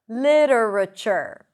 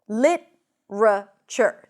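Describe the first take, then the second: First: It has four syllables with a flapped t. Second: It has three syllables with a plain t. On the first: "with a flap T" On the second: "we don't have the flap T because we drop one syllable"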